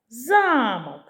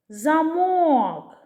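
First: The stress is on the first syllable. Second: The stress is on the second syllable. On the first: "Замок на перший склад" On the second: "На другий склад"

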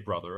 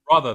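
First: It is said in an American accent. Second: It is said in a British RP accent. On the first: The speaker calls it wrong. "I didn't say brother" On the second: The speaker calls it right. "If I say brother"

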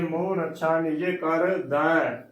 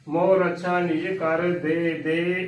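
First: The last word ends with an 'ai' vowel. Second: The last word ends with an 'e' vowel. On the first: The speaker calls it right. "ਦੈ ਹੀ ਬੋਲਣਾ ਹੈ" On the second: The speaker calls it wrong. "ਉਚਾਰਨ ਗਲਤ ਹੈ"

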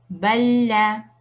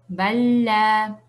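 Both takes have the same delivery.

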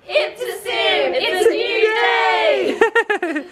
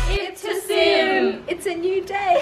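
First: It is said with high energy. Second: It is said with low energy.

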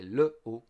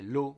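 First: The vowel of le is pronounced separately. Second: The vowel of le is dropped. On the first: The speaker calls it right. "we say le eau" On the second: The speaker calls it wrong. "we don't say l'eau"

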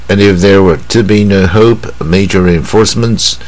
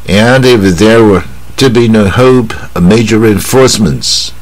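First: The pitch stays fairly even throughout. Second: The pitch rises and falls with wide contrast. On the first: "我们先念一次" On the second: "抑扬顿挫念的，啊，分开一点会更好"

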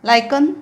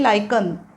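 First: The word is said with a 'k' sound. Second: The word is said with a 'k' sound.

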